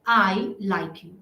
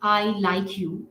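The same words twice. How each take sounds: First: The stress falls on the word I. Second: The stress falls on the word you. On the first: It is the speaker who likes the person. "आई पर stress डालने की जरूरत होती है" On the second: The liking is for this person only. "यू पर stress डालने की जरूरत है"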